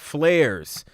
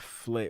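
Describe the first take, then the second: First: The name ends with a final z sound. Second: The name ends without a final z sound. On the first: The speaker calls it right. "I'm going to get it right tonight" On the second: The speaker calls it wrong. "I've been saying it wrong"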